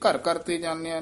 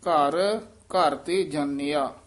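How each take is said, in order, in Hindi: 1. शब्द बिना किसी विराम के एक साथ बोले जाते हैं। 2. पहले शब्द के बाद हल्का सा विराम आता है। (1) "ਨਹੀਂ ਕਹਿਣਾ" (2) "ਘਰ ਇੱਥੇ ਯਮਕ ਹੈ"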